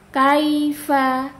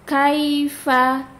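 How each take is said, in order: The two takes are said the same way.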